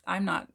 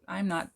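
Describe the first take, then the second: No difference in how they are said.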